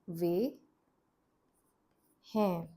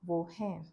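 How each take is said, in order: First: The first word is pronounced 've'. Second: The first word is pronounced 'wo'. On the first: "In the script, it's written as वे हैं" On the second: "It sounds more like wo"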